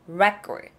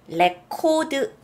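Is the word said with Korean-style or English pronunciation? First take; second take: English; Korean-style. First: It is said with English sounds and syllables. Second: It is said with Korean-style syllables and vowels. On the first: The speaker calls it right. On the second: The speaker calls it wrong.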